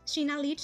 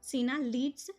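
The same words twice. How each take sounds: First: It is said fast. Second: It is said slowly.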